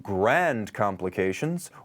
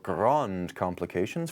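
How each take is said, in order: First: The vowel in grand is flat and unrounded. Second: The vowel in grand is more rounded.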